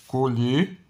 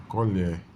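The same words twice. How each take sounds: First: Colher with a closed o and a rising end, as the verb. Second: Colher with an open e and a falling end, as the noun. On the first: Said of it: "o verbo aqui colher ... e o substantivo colher". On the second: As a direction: say colher with the open e and let it fall. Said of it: "e o substantivo colher". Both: Shown as a demonstration.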